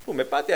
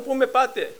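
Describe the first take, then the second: First: Said in the usual way. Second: Pleading cry, pitched high; retold desperate cry. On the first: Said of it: "preacher repeats the cry plainly". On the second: Man lifted by the claw, high pleading shout. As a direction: cry out high as you're hauled upward. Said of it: "αυτός φώναζε".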